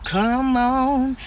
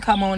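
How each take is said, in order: First: Drawn-out churchy call to come on; old-school church come on. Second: Said in the usual way. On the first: Shown as a demonstration. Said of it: "They used to hit you with that "come on". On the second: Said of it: "They used to hit you with that".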